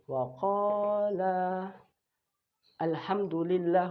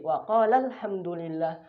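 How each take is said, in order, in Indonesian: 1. Vokal akhir panjang, dengan jeda sebelum kata berikutnya. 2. Vokal akhir pendek, langsung tersambung ke kata berikutnya. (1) "dibaca panjang ketika waqaf" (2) "bertemunya dengan alif lam, maka kita pendek, bacanya pendek"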